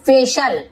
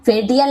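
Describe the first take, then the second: First: फेशल with a "sh" sound, "FAY-shal"; correct reading. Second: फेटियल sounded out as "fay-ti-yal"; wrong spelling reading. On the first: Teacher answering how the word is read, फेशल with "sh" for "ti". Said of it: "तो इसे हम क्या पढ़ेंगे". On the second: Teacher warning learners off a misreading, फेटियल with "ti" instead of "sh". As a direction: say फेटियल with a literal "t" and extra syllable. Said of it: "नहीं पढ़ेंगे". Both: Shown as a demonstration.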